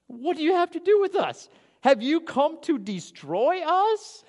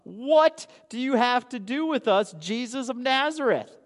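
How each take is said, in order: First: Preacher acting the demons inside the man, scared and high; frightened demon voice. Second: A hint of a demon's cry, higher and louder; preacher lightly voicing the possessed man crying out. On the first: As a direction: stretch it out like a cornered demon. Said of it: "the demons inside of the man speaking out". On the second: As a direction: call out like a startled demon, lightly voiced. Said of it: "and he cried out".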